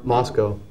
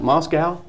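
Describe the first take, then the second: First: The second syllable sounds like 'co'. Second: The second syllable sounds like 'cow'. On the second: "because it says cow, so I, it's probably my Texas accent coming out"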